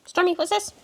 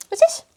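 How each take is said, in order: First: Higher, teasing question to the cat; playful pet talk. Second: Very high, louder squeaky what's this; excited pet squeal. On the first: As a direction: tempt the cat with a toy. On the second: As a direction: squeal it up to tempt the cat. Teasing the cat with toy. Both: Real, not acted.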